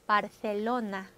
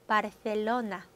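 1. 가운데 자음은 th 소리입니다. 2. 가운데 자음은 th 소리입니다.

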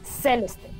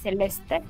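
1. El acento cae en la primera sílaba. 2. El acento cae en una sílaba posterior. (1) "es Celeste. porque la tilde está en la primera" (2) "no es Celeste"

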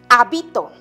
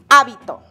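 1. El acento está en la segunda sílaba. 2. El acento está en la primera sílaba. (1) "En la segunda sílaba, o sea, en la penúltima sílaba" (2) "Está la mayor fuerza de voz en la antepenúltima sílaba"

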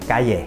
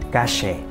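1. Từ này được đọc theo giọng Tây Ban Nha Mexico. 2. Từ này được đọc theo giọng Tây Ban Nha Argentina. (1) "Qua tiếng Mễ" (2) "những nước như là Argentina thì họ lại nói là"

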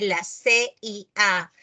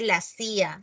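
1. La CIA se deletrea letra por letra. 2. La CIA se lee como una sola palabra. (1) "se dice la CIA" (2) "no se dice la CIA"

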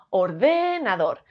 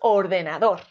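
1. La tónica está en la segunda sílaba. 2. La tónica está en la cuarta sílaba. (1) "Si fuese de" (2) "Y si es dor"

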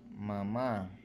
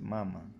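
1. La acentuada es la segunda sílaba. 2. La acentuada es la primera sílaba.

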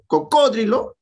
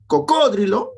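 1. El acento está en la segunda sílaba. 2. El acento está en la segunda sílaba.

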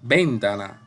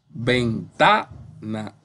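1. La fuerza está en la primera sílaba. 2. La fuerza está en la sílaba del medio. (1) "Comenzamos con ven, ... suena rara" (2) "esa suena bien"

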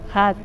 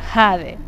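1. La vocal es un sonido 'a' corto y abierto. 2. La vocal es un sonido 'ay' largo y deslizante. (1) "sino es un jad" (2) "como un J-A-D, jade"

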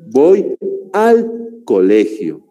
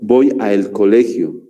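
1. 'A' y 'el' se unen en una sola palabra, 'al'. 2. 'A' y 'el' se dicen como palabras separadas. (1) "Lo correcto es voy al colegio" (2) "Está mal dicho eso"

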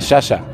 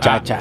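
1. La consonante es un sonido 'sh'. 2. La consonante es un sonido 'ch'. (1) "Y usted dice shasha" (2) "muchacha, así, chacha"

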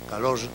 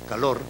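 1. La r final es una asibilada sonora. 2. La r final es una vibración múltiple. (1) "ora como asibilado sonoro" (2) "ora como vibrante múltiple"

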